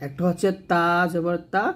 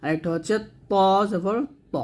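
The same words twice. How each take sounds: First: তা জবর তা with a light, thin তা; thin তা as in a Quran lesson. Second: ত জবর ত with a full, thick, heavy ত; heavy Quranic ত sound. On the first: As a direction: say তা light and thin, not heavy. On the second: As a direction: make ত heavy and full in the mouth. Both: Shown as a demonstration. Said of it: "তা উচ্চারণ করা যাবে না".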